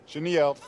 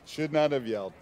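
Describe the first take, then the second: First: Said in the usual way. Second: "not" pulled out and stressed. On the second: Acted. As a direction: hit "not" to correct yourself.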